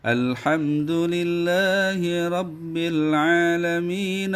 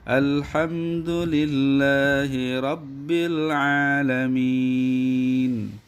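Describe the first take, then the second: First: The last vowel is short and runs on. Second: The last vowel is held long before stopping. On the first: The reading continues into the next verse. "Kalau alamina maka dia hanya menjadi dua harokat" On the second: The reading stops at the end of the verse. "kalau disukunkan atau di waqaf gitu, maka dia dibaca menjadi enam"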